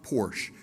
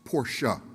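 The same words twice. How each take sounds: First: The word ends without a final vowel sound. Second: The word ends with a short 'a' vowel. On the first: The speaker calls it wrong. "So it's not Porsche" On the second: The speaker calls it right. "that E on the end in German is pronounced as a short A"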